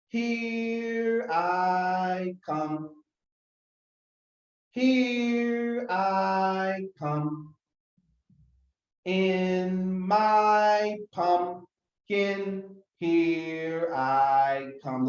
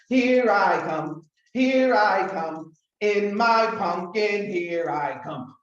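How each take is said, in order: First: It is said slowly. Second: It is said very fast.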